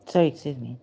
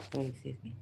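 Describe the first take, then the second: First: Loud, falling sorry; plain loud excuse me; loud apology. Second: Soft sorry, rising on me; hushed excuse me; quiet apology. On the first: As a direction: call out sorry to the room. Apologizing aloud in museum. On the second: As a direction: murmur an apology. Apologizing under breath. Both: Real, not acted.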